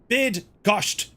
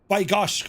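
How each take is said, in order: First: The first syllable sounds like 'bid'. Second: The first syllable sounds like 'by'. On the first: The speaker calls it right. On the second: The speaker calls it wrong.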